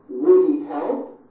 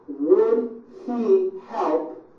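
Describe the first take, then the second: First: The words are squeezed together into reduced sounds. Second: Each word is said separately and in full.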